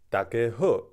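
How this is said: It is spoken in Taiwanese pronunciation. "It was in Taiwanese"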